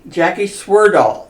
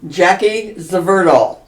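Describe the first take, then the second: First: The surname begins with a W sound. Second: The surname begins with a V sound. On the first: The speaker calls it right. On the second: The speaker calls it wrong.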